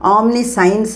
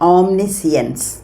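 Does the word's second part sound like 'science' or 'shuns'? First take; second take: science; shuns. First: The second part sounds like the word science. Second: The second part sounds like shuns, not science. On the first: The speaker calls it wrong. "ഓംനി സയൻസ് എന്നല്ല" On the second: The speaker calls it right. "ഓംനി സിയൻസ് എന്നാണ് ഈ വാക്കിന് ഉച്ചരിക്കേണ്ട രീതി"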